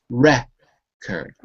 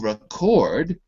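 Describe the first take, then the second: First: The stress is on the first syllable. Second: The stress is on the second syllable. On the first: It is a noun. "that little apostrophe before the R, it tells you that that is the stressed syllable" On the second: It is a verb. "we'd have to switch it to the second syllable"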